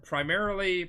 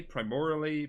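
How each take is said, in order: First: Said in the usual way. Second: "primarily" said as "pry-MOR-ly"; mispronounced. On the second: Real, not acted. Trying out a word's pronunciation.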